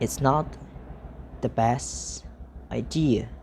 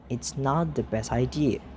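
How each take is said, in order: First: The sentence is said slowly. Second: The sentence is said at normal speed.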